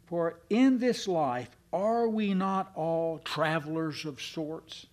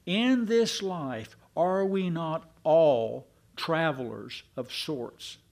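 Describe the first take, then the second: First: Slow, with the question rising on are we not all travelers of sorts; slow rhetorical question. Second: Slow, with all travelers of sorts leaned on hard, stressing all; slower and more emphatic. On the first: Preacher drawing the congregation into a slow rhetorical question. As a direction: pose it slowly to the congregation. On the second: Preacher repeating the question once more, more emphatically. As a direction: press it home, stressing all. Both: Shown as a demonstration. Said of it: "say it one more time".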